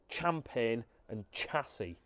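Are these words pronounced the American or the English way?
American. The words are said with an American pronunciation. The speaker calls it wrong. "not champagne and chassis"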